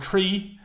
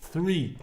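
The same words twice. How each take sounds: First: It begins with a plain t sound. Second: It begins with a th sound. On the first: This is the everyday local way. "that's how most Irish people say it" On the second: This is the formal broadcasting way. "can you say it with a H?"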